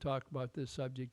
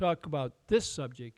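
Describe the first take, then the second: First: It is said in a flat, monotone voice. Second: It is said with lively rising and falling pitch. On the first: The listener loses interest. The speaker calls it wrong. "The first one will put you to sleep" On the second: The listener pays attention. The speaker calls it right. "The second one will get your attention"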